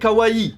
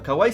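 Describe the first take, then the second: First: The word is said with every vowel kept. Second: The word is said with one vowel dropped. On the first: The speaker calls it right. "le vrai nom ... c'est kawaii" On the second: The speaker calls it wrong. "c'est pas kawaii / il te manque une voyelle"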